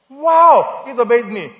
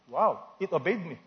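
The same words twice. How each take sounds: First: Loud, high, drawn-out mock wow; hammed-up astonishment at a tiny miracle; mock amazement. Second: Said in the usual way. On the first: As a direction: exclaim in pretend wonder, high and loud. Mock amazement at foot obeying command.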